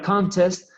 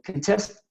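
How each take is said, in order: First: The stress is on the first syllable. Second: The stress is on the second syllable. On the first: It is a noun meaning a competition. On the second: It is a verb meaning to challenge a shot.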